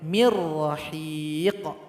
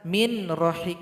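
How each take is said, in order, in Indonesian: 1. Bunyi n melebur sepenuhnya menjadi r yang dobel. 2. Bunyi n dilafalkan terpisah sebelum r. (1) "dilebur kepada huruf ra tapi tidak dengung" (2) "tidak boleh dibaca min rahiq, enggak boleh"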